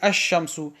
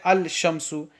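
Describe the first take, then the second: First: The L is silent and the 'sh' is doubled. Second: A clear L sound comes before the 'sh'. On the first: The speaker calls it right. "We won't pronounce the lam" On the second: The speaker calls it wrong. "We won't say al-shamsu"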